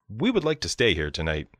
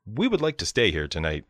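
No difference in how they are said.

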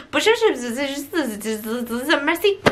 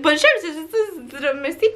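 First: Clipped French Bonjour, merci, lightly mocked; French guy. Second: Clipped French Bonjour, merci, laughing through the mock; French guy. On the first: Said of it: "the French guy who's like". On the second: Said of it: "but he was like". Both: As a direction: toss off Bonjour and merci like a bored French attendant.

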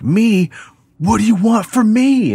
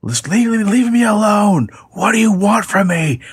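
First: Panicked plea. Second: Very high, frightened begging to a caller; panicked plea. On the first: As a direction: cry out in high-pitched terror. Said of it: "And he's like". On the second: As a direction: plead with the stalker in a high panic. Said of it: "him saying". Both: Retold or imitated.

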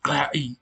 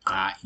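First: GAI with a harsh, vibrating glottal trill, loud and higher; gai pushed hard and rough, much louder, vibrating in the throat; over-trilled strident vowel. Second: GAI with the throat constricted but not trilled; smoother strident vowel. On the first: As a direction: force a rattling throat trill through GAI. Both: Shown as a demonstration. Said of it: "It's, it's a lot smoother".

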